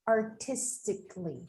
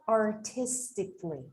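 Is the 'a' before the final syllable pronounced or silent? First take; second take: silent; silent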